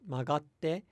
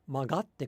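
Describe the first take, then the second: First: The word is said with flat pitch. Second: The word is said with a pitch accent. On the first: The speaker calls it right. "with the correct pitch accent pattern, so hebang no no accent, if you say it flat" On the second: The speaker calls it wrong. "then there's two accents in a short phrase"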